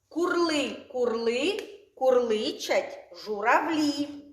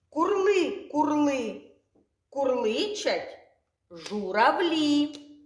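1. Фразу вимовляють швидше. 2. Фразу вимовляють повільніше.

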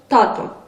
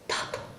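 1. Слово вимовляється повним голосом. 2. Слово вимовляється пошепки, без голосу.

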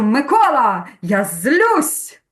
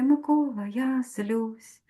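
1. Сказано сердито, з гнівом у голосі. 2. Сказано спокійно, без гніву в голосі.

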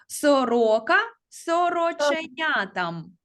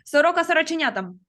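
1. Фраза промовляється помірним темпом. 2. Фраза промовляється дуже швидким темпом.

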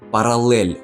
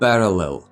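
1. Кінцевий звук «л» м'який. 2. Кінцевий звук «л» твердий. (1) "Ну все ж нормально було" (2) "вирізали м'який знак і цю м'якість на «л»"

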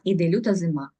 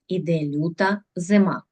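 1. Рядок читається швидко. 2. Рядок читається повільніше, обережно. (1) "Ще раз, але швиденько" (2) "Читаємо правильно наголошуючи і виразно"

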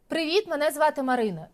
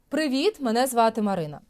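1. Голос звучить плоско й напружено. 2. Голос звучить повно й приємно. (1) "звук стає пласким... звук стає неприємним" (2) "І тоді звук звучить так"

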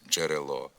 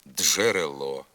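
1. Дж — це один злитий звук. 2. Дж вимовляється як два окремі звуки. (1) "замість" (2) "вимовляється не один звук, а два"

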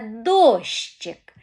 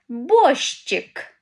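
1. Слово починається на звук «д». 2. Слово починається на звук «б». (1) "Правильне слово – це дощик. І перший звук у цьому слові – звук «д»" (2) "Правильно я сказала слово? Ні"

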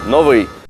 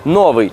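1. Наголос на другому складі. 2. Наголос на першому складі. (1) "в українській мові це слово наголошується на другому складі, і ми говоримо «новий»" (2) "наголошуючи його на першому, так як це властиво російському відповіднику"

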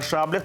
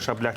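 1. Слово має стандартний наголос. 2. Наголос у слові падає на інший склад. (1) "це правильний наголос" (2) "а не шаблях"

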